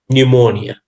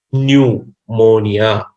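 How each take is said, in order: First: Said in the usual way. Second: Pneumonia very slowly, in parts, "new... mo-nia"; drawn-out pronunciation demo. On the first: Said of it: "So it's pronounced". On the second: Shown as a demonstration. Teacher teaches rounding lips after N, pneumonia slowly sounded out. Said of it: "round your lips after N".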